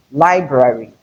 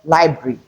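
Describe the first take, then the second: First: Library as LIE-bra-ry, both Rs; correct pronunciation of library. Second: Library cut to LIE-bree, one R; mispronounced library. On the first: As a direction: sound every R in library. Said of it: "but library". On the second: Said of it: "It is not library". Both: Shown as a demonstration.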